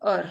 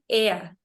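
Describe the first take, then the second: First: The vowel sounds like English 'er'. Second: The vowel sounds like English 'air'. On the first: The speaker calls it wrong. "not er" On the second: The speaker calls it right. "the pronunciation would be air"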